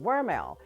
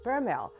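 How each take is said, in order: First: The name begins with a W sound. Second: The name begins with a B sound. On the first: "they give the V a W pronunciation" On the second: "the older folks would give it a B pronunciation"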